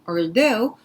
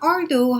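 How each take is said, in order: First: The stress is on the second syllable. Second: The stress is on the first syllable. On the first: The speaker calls it right. "이음 절각세 들어가는 거" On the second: The speaker calls it wrong. "although 하면 안 되고요"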